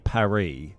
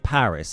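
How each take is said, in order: First: The word is said in a French way. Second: The word is said in an English way. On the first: "I don't say Paris" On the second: "I say Paris"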